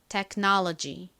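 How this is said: It is said with American English sounds. "미국식 원어 발음으로 좀 버터를 발라서"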